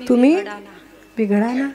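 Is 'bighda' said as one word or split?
one word. 'Bighda' is said as one word.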